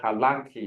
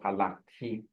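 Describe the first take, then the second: First: The stress is on the second syllable. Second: The stress is not on the second syllable. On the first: The speaker calls it right. "usually it's in the second syllable" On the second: The speaker calls it wrong. "instead of"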